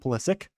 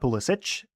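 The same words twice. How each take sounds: First: The name has its current American pronunciation. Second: The name has its older ancestral pronunciation. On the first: This is how the name is said in America today. "the American pronunciation now has just gone to Pulisic" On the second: This is how the family name was originally said. "as I think ancestrally his name was probably uh, last name was probably pronounced like that"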